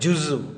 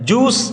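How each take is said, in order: First: The word ends in a short vowel u. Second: The word ends in a consonant, like juice. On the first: The speaker calls it right. "ஜுசு என்று சொல்லணும்" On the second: The speaker calls it wrong. "ஜூஸ் என்று சொல்வது தவறு"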